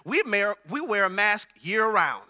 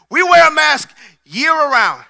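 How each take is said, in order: First: Said in the usual way. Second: Louder, higher punchline; emphatic preached repeat. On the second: Shown as a demonstration. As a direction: hammer it home to the congregation.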